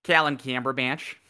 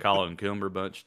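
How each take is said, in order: First: Higher, flattened Minnesotan vowels on the name; Minnesotan accent. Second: Rounded Southern take on the name; Southern accent. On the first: Co-host shows the villain's new name, Minnesotan accent. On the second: Co-host shows the villain's old name, Southern accent. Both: Shown as a demonstration. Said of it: "he rebranded from Southern to Minnesotan".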